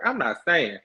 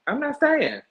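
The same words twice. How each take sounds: First: Said in the usual way. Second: I'm not staying squealed much higher; high-pitched emphatic I'm not staying; emphatic repeat. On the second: Shown as a demonstration. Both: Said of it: "repeats it with more force".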